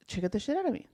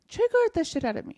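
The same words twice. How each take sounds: First: Said in the usual way. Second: Triggered said much higher, stressed hard; emphatic repeat. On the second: Real, not acted. Telling a friend how triggered she got, emphatic. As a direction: hit Triggered up high in disbelief.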